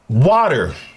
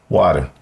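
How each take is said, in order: First: The R sound is clearly pronounced. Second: The R sound is softened or dropped.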